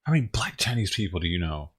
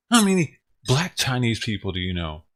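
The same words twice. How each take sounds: First: Said in the usual way. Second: Repeated louder, stress on How. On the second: Real, not acted. Repeating the question to a confused chat, louder. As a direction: push the line again so it lands.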